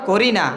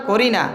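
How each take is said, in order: The two takes are said the same way.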